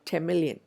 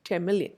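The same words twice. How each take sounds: First: The n of ten blends toward an m. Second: The same.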